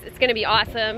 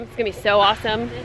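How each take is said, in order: First: Said in the usual way. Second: "so" stretched and lifted, fast; stress on so. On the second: Shown as a demonstration. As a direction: lean hard into "so".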